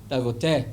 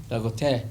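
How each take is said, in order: Both takes have the same delivery.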